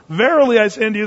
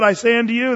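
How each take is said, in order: First: "Verily" punched higher and louder, then "I say unto you"; double emphasis. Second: "I say unto you" lifted, with a rise on "say"; simple emphasis. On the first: Preacher demonstrating double emphasis, "Verily" loud and high. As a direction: hit "Verily" hard, then carry through "I say unto you". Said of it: "that's double emphasis". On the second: Preacher explaining Jesus' emphasis, lifting "say". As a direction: give "I say unto you" one clean lift of emphasis. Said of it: "that's emphasis". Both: Shown as a demonstration.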